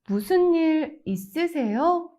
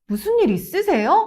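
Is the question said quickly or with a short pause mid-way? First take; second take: with pause; quickly. First: It pauses after 일, gently rising on 요. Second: It is said quickly, rising at the end. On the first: The speaker sounds friendly and concerned. The speaker calls it right. "Pause slightly after 일 and then add a slight upward intonation on 요" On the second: The speaker demands an explanation. The speaker calls it wrong. "If you say it quickly and with a rising tone at the end"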